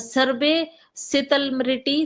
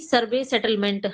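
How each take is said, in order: First: It is said as rustic 'sitalmiti'. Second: It is said as standard 'settlement'. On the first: This is how the character says it in dialect. "इसको ऐसे बोला गया है" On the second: This is the correct standard word. "शुद्ध शब्द ये है"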